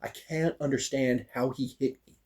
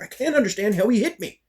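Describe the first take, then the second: First: Softly retold frustration; quiet, held-in annoyance; subdued bafflement. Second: High-pitched exasperated retort; retold worked-up protest; mad, exasperated. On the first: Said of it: "I'm mad. And I'm still". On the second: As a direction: burst out in baffled frustration, pitched way up. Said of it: "Why are you mad?".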